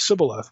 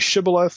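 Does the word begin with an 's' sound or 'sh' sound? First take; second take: s; sh. First: The word begins with an 's' sound. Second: The word begins with a 'sh' sound. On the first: The speaker calls it wrong. "the wrong answer meant you were going to die" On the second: The speaker calls it right. "can you say shibboleth?"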